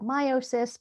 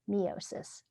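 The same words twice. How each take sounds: First: The first syllable sounds like 'my'. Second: The first syllable sounds like 'me'. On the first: This is the usual way to say the term. "most people call it meiosis" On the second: It hints that the process makes a mini me. "I like to say mini me's"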